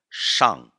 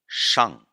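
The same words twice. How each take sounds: First: The vowel is an open a sound. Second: The vowel is an open a sound.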